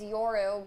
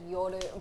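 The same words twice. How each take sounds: First: The name is said with an English pronunciation. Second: The name is said with a Japanese pronunciation. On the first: This is how people usually say it. "It's Yoru" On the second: This is the original pronunciation in the source language. "the Japanese pronunciation is Yoru"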